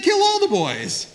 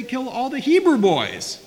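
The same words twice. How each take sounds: First: Slow, very high shout leaning on ALL; stress on ALL. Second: Loud, high shout with HEBREW punched; stress on HEBREW. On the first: Lecturer quotes what was really said, shouting with stress on all. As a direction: stretch out ALL in a loud mock decree. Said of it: "He said". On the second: Lecturer supplies the decree's forgotten word, shouting with stress on Hebrew. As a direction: hit the word Hebrew hard in a shouted order. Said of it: "He forgot to say". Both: Shown as a demonstration.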